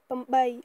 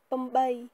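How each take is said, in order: No difference in how they are said.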